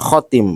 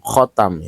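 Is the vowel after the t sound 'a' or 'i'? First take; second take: i; a. First: The second vowel is an 'i' sound. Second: The second vowel is an 'a' sound. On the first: "dan kasroh tak" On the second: "dengan dibaca patah tak"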